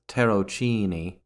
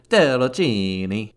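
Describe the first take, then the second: First: It is said with a plain English pronunciation. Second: It is said with an exaggerated Italian pronunciation.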